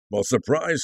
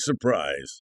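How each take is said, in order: First: Said in the usual way. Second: Surprise said much lower and softer, falling; dry, deadpan surprise; wry surprise. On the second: Acted. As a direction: sardonic low echo of surprise.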